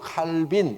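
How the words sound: The name is said in an English-style way. "미국의 영향을 많이 받기 때문에 칼빈, 딱 발음대로 칼빈"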